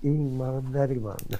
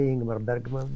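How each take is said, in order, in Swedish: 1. Namnet uttalas med en stigande-fallande tonhöjd. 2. Namnet uttalas med en platt tonhöjd. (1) "det är Ingmar Bergman" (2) "det är inte Ingmar Bergman"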